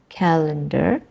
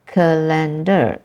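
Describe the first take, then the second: First: Calendar with CAL stressed; calendar, weight on the first syllable. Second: Calendar with LEN stressed, slow; wrong stress on LEN. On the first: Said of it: "Malaysian English speakers produce words like". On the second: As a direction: demo the Malaysian stress, calendar as ca-LEN-dar. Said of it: "the stress is in the second part of that word". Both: Shown as a demonstration.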